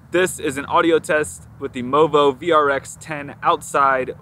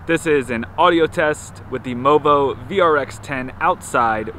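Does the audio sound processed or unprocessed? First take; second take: processed; unprocessed. First: The outdoor recording has audio processing applied. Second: The outdoor recording has no audio processing applied. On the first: "outside with audio processing" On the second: "outside with no audio processing"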